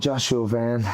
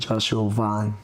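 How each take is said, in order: First: The surname has the vowel of 'van'. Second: The surname has the vowel of 'dawn'. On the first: This is the casual version friends use. "my friends call me Joshua Van around here" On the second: This is the actual pronunciation of the name. "it's actually Joshua Vaughn"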